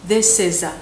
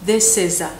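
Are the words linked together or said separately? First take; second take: linked; linked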